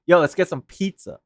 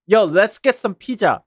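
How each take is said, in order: First: "pizza" said the English way, "peet-suh"; English pronunciation of pizza. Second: "pizza" said Korean-style as "pee-ja"; Korean pronunciation of pizza. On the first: Bilingual streamer showing how they talk to English people, English-style "pizza". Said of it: "When I'm talking to English people". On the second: Talking to a fellow Korean-English bilingual, "pizza" said the Korean way. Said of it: "who happens to know English and Korean". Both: Shown as a demonstration.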